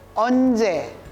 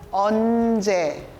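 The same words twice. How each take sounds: First: It is said fast. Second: It is said slowly.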